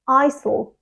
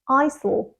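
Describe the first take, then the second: First: Two syllables with an S sound. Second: Two syllables with an S sound.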